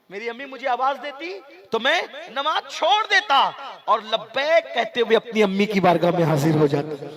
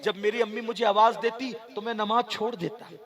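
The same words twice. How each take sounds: First: Impassioned cry. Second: Said in the usual way. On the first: Acted. Preacher repeating the Prophet's words to the crowd, crying out loud. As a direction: build the repeat into a full-throated cry.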